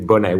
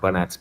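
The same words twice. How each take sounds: First: The name is pronounced the French way. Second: The name is pronounced the English way.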